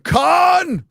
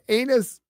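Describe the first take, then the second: First: It is said with one syllable, like Khan. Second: It is said with two syllables, like Canis. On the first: It jokingly refers to a film character. "I like to call it the Khan Film Festival" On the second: Someone else misread the name. "pronounced like oh Canis"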